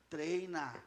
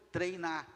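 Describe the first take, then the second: No difference in how they are said.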